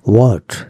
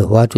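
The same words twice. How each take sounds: First: হোয়াট as "wot", rounded o, no h; correct pronunciation. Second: হোয়াট with an open "ah", as "waat"; mispronunciation demo. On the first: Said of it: "এইচ এর উচ্চারণটা কেন হয় না". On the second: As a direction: say হোয়াট like "waat", the common mistake. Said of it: "হোয়াট উচ্চারণ ভুল". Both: Shown as a demonstration.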